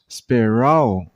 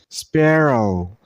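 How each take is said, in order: First: The stress is on the second syllable. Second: The stress is on the first syllable. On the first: The speaker calls it wrong. "Don't stress on the second syllable" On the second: The speaker calls it right. "Stress on the first one"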